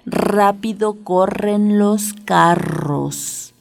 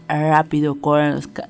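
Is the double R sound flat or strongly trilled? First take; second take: trilled; flat. First: The double R is strongly trilled. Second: The double R is weak and flat. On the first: The speaker calls it right. "tiene que oírse muy bien la doble R" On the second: The speaker calls it wrong. "Que no sea"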